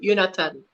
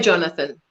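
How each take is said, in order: First: The name begins with a Y sound. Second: The name begins with a J sound. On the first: "in Afrikaans, we would write Jonathan ... and we would say Jonathan" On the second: "we say Jonathan, the English Jonathan"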